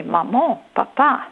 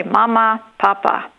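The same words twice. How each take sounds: First: "maman, papa" with each word rising onto its last syllable; stress on second syllable. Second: "mama, papa" with the first syllable of each stressed. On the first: Scientist showing French word stress, second syllable lifted in "maman, papa". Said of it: "French speakers stress the second syllable". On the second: Scientist showing German word stress, first syllable stressed in "mama, papa". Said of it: "German speakers stress the first syllable". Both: Shown as a demonstration.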